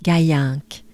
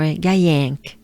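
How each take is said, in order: First: Gaillinck with standard French vowels; standard version. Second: Gaillinck said with a broader, more open nasal vowel; local accent version. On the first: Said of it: "I'll stay with". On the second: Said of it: "their accent will be more". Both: Shown as a demonstration.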